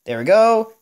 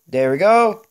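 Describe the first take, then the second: No difference in how they are said.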